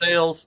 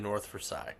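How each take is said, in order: First: It is said the local Pittsburgh way. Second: It is said the way outsiders say it.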